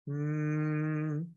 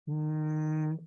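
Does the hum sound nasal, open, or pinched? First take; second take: pinched; open. First: The hum has little space inside the mouth. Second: The hum has open space inside the mouth.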